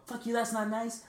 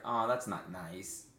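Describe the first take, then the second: First: Very high mimicked jeer; high-pitched mock-angry parroting; mocking hooker. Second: Slow, understated retold protest; drawn-out, low-key reproach; mild reproach. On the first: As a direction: throw the words back as a jeering hooker. Hooker throws his words back. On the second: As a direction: answer an insult with a slow, gentle objection. His mild reply to hooker.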